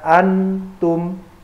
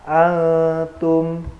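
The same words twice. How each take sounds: First: The n sound is pronounced clearly. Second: The n sound is hidden and blurred. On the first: The speaker calls it wrong. "tidak boleh dibaca antum" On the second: The speaker calls it right. "nunnya harus samar"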